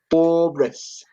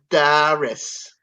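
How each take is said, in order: First: It is said in a plain accent. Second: It is said in a Long Island accent.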